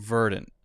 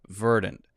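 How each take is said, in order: No difference in how they are said.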